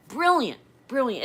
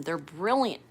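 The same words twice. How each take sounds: First: "brilliant" said much higher and louder, punched with delight; emphatic praise. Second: Said in the usual way. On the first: Real, not acted. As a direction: hit "brilliant" hard and high, then ease down. Praising grandson's gifted mind.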